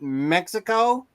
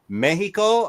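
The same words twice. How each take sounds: First: The word is pronounced the English way. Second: The word is pronounced the Spanish way. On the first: "and not Mexico" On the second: "used my Spanish upbringing to say Mexico"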